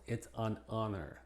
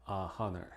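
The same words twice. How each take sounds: First: "an honor" linked as "an onner"; "honor" with no H after "an"; silent H after AN. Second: "a honor" as "ah honner", with an audible H; "a honor" unlinked, H pronounced; wrong, H sounded. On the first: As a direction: run "an" into the vowel of "honor". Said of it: "Debemos utilizar el artículo an". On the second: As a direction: puff the H in "honor" after a separate "a". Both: Shown as a demonstration.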